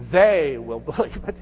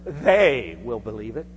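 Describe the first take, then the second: First: "They" stressed with a laugh breaking into "believe"; laughing repeat. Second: "They" lifted with a rising tune; stress on they. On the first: Shown as a demonstration. Preacher echoes the line to the church, laughing on "They". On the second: Retold or imitated. Quoting Jaron to the congregation, stressing "They". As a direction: lean on "They" and let it rise. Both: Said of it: "emphasized the word".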